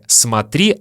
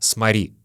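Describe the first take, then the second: First: The t sound is clearly pronounced. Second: The t sound is dropped in quick speech. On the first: "скажем не «смотри»" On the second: "говоря быстро, ... а «смори»"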